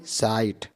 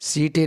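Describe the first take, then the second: First: The vowel is an eye diphthong. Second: The vowel is a long ee sound. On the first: The speaker calls it right. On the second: The speaker calls it wrong. "सीटे नहीं"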